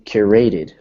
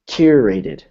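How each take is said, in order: First: The first syllable is not stressed. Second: The first syllable is clearly stressed. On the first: The speaker calls it wrong. "So you're saying curated" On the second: The speaker calls it right. "but you want it to be curated"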